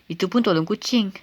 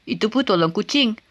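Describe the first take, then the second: Both takes have the same delivery.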